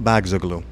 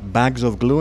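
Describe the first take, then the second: First: The middle word is slurred into its neighbours. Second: The middle word is said clearly and separately.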